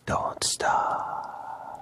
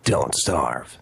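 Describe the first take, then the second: First: Breathy whispered Don't Starve. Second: Low, gruff Snake growl; Snake's voice. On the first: Shown as a demonstration. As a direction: whisper it softly. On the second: Pretend. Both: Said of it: "Can we hear you say Don't Starve in Snake's voice".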